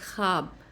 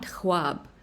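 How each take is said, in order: First: The kh goes straight into the vowel, no w. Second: A w sound follows the kh before the vowel. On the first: The speaker calls it right. "it's khab" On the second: The speaker calls it wrong. "not khwab"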